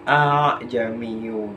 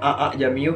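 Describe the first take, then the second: First: The two opening vowels glide smoothly together. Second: The two opening vowels are split by a break. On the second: "kelihatan penggalannya"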